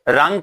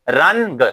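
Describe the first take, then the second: First: The n is only a nasal vowel. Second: The n is pronounced as a full consonant. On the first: The speaker calls it right. "इसमें नून जाहिर नहीं किया जाता" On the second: The speaker calls it wrong. "अगर कोई नून जाहिर करता है"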